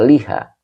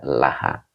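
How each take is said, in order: First: The first vowel is an 'i' sound. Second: The first vowel is an 'a' sound. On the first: The speaker calls it wrong. "tidak dibaca liha" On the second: The speaker calls it right. "dibaca laha"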